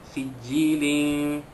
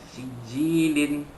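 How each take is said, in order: Both takes have the same delivery.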